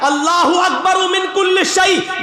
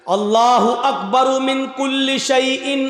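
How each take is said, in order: First: High, brisker proclamation; speeded up. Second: Slow, measured intoned recitation. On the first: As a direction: pick up speed and call it out. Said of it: "अभी speed बढ़ेगी मेरी". (तेज़, ऊँची आवाज़ में) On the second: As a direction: draw "अल्लाहु अकबर मिन कुल्ली शैइन" out carefully. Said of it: "बहुत स्लो बोल रहा हूं". (धीमे-धीमे, ठहरकर) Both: Shown as a demonstration.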